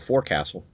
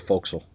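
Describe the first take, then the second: First: The word is said in full, as spelled. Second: The word is contracted, with reduced syllables. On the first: The speaker calls it wrong. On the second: The speaker calls it right.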